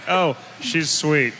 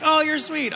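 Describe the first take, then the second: First: It sounds catty and sarcastic. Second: It sounds warm and sincere.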